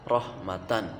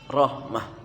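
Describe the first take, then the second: First: The word ends with the syllable tan. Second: The word ends with an h sound. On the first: This is the word's base form. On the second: The reader stops on this word.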